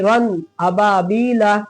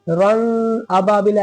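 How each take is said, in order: First: The n sound is pronounced clearly and distinctly. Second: The n sound is blended into the next word. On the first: The speaker calls it right. "जाहिर करके पढ़ेंगे" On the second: The speaker calls it wrong. "ऐसे नहीं पढ़ेंगे"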